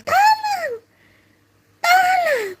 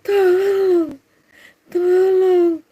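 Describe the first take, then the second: First: Very high screamed cry; screaming at first. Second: High, drawn-out mock wail; cries weakening. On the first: Preacher shows a false victim's first cries, screaming high. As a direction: open with a piercing mock scream. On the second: Preacher shows a false victim's cries easing off, drawn-out wail. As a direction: let the scream sag into a long call. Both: Shown as a demonstration. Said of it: "awal-awalnya".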